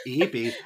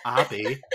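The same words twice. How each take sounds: First: "Abby" said as AY-bee; correct pronunciation. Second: "Abby" with an open 'a' as in cat; wrong pronunciation. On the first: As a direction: correct it to a long-A "Abby", like Abe plus ee. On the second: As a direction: stretch out the mistaken "Abby" with an ah sound. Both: Retold or imitated. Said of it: "No, not Abby".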